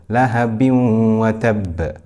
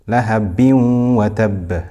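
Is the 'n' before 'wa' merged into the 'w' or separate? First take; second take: merged; merged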